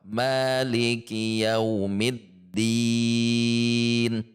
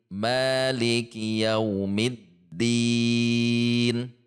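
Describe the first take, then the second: No difference in how they are said.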